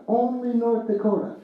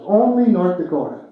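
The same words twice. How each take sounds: First: Wry repeat. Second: Said in the usual way. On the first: Shown as a demonstration. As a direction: shake your head fondly as you echo it. Speaker repeats punchline for effect.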